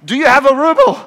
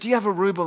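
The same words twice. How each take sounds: First: It is shouted louder and quicker. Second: It is said at normal loudness.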